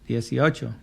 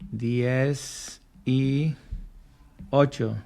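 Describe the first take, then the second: First: It is said quickly, run together as one word. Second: It is said slowly as three separate words.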